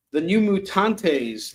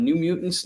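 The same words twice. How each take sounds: First: "The New Mutantes" said slowly with an extra "-tes" ending; misread title. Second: Said in the usual way. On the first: Real, not acted. Reading the comic title aloud, stumbling on "Mutantes". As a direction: drag out "Mutantes" like an odd plural.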